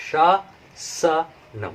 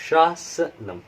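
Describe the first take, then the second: First: शासनम stretched out very slowly and drawn; very slow demo. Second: Said in the usual way. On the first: Shown as a demonstration. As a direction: hold each sound of शासनम so learners can follow. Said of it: "very slow demo take". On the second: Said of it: "contrasted with slow take".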